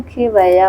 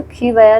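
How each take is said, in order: First: खी वया said slowly and carefully as the correct spelling; slow down and lay out खी वया syllable by syllable; correct form, slow. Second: Quick run-through of the wrong spelling खी वया; wrong form, quick. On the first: Teacher to students, slowly giving the correct spelling. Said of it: "होगा". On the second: Teacher to students, quickly naming the wrong spelling. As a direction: rattle off खी वया fast as the incorrect form. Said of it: "नहीं". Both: Shown as a demonstration.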